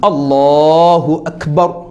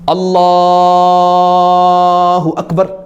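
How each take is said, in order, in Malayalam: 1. ഈ വാക്യം മിതമായ നീളത്തിലാണ് പറയുന്നത്. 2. ഈ വാക്യം വളരെ നീട്ടിയാണ് പറയുന്നത്. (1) "ഒരു മീഡിയം ലെവൽ" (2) "അങ്ങനെ അത്രയും നീട്ടോ അങ്ങനെ നീട്ടേണ്ട കാര്യമൊന്നുമില്ല"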